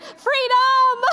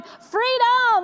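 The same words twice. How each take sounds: First: Much higher, louder whoop of relief; jubilant freedom cry. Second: High, bright shout of joy, mimicking her daughter; gleeful cry of freedom. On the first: Retold or imitated. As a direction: burst out like school's finally out for mom. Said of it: "and I went". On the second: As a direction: echo the daughter's thrilled cheer as she's dropped off. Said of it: "and she's, like, going".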